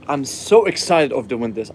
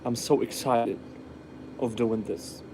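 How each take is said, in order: First: The voice sounds lively and enthusiastic. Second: The voice sounds flat and unenthusiastic. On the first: The speaker is genuinely happy. The speaker calls it right. "You be more like" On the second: The speaker is not really happy. The speaker calls it wrong. "No one can be happy and be like"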